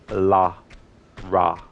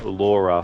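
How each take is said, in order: First: The first vowel sounds like the vowel in 'car'. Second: The first vowel sounds like the vowel in 'law'. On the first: The speaker calls it right. "So it's La Ra" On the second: The speaker calls it wrong. "instead of saying Laura for Lara"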